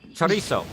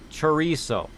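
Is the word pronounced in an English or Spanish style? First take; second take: Spanish; English. First: The word has a Spanish-style pronunciation. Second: The word has an anglicized English-style pronunciation.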